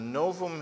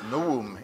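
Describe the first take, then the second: First: The middle consonant is a V sound. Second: The middle consonant is a W sound. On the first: The speaker calls it wrong. "all biblical scholars do" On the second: The speaker calls it right. "for those of you who know Latin better than most biblical scholars"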